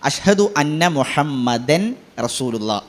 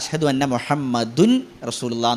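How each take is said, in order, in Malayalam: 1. ഈ പേര് 'an' ശബ്ദത്തിലാണ് അവസാനിക്കുന്നത്. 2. ഈ പേര് 'un' ശബ്ദത്തിലാണ് അവസാനിക്കുന്നത്.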